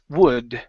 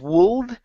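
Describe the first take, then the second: First: The L sound is left out of the word. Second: The L sound is pronounced in the word. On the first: The speaker calls it right. "The L is silent" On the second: The speaker calls it wrong. "instead of wold"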